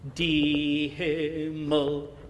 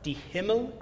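First: The strong beat falls on the article die. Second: The strong beat falls on the noun Himmel. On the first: The speaker calls it wrong. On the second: The speaker calls it right.

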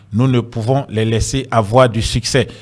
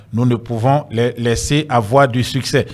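Both takes have the same delivery.

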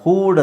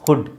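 First: The vowel is a long oo sound. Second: The vowel is a short u sound. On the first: The speaker calls it wrong. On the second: The speaker calls it right.

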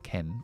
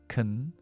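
First: The vowel is full and open, like 'Ken'. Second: The vowel is a short, weak schwa. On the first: The speaker calls it wrong. "no es can, ese es el novio de Barbie" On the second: The speaker calls it right. "Muy corta, esto es una schwa"

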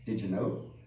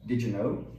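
First: The stress is on know. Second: The stress is on know.

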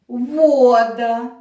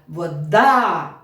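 First: The stress is on the first syllable. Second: The stress is on the last syllable. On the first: "Наголос падає на перший склад, значить я говорю слово «вода»" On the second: "наголос би в нас впав на останній склад"

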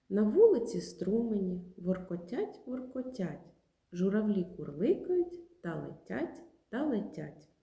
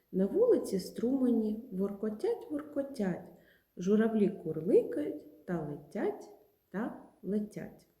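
Both takes have the same delivery.

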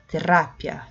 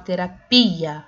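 First: The stress is on the syllable ra. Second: The stress is on the syllable pi. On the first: This is the Spanish pronunciation. "Já no espanhol, terá, é o ra" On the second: This is the Portuguese pronunciation. "no português a gente fala terapia, a sílaba tônica é o pi"

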